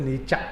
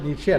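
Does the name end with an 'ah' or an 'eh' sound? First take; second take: ah; eh. First: The name ends with an 'ah' vowel. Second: The name ends with an 'eh' vowel. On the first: The speaker calls it right. "ഉച്ചരിക്കേണ്ടത് നീച്ച എന്നാണ്" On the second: The speaker calls it wrong. "നീച്ചെ അല്ല ഉച്ചരിക്കേണ്ടത്"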